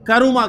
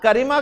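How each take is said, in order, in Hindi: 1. बीच के अक्षर में स्वर u है। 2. बीच के अक्षर में स्वर i है। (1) "बल्कि करुमा कहता है" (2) "ना करीमा कहता है"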